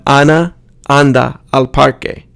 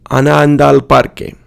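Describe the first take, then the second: First: Ana, anda, al parque each separate; unlinked words. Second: Ana anda al parque fused as anandal parque; linked vowels. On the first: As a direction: keep every a apart in Ana anda al parque. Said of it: "Instead of". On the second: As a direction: glide Ana anda al parque into one run. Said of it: "vowel is pronounced only once". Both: Shown as a demonstration.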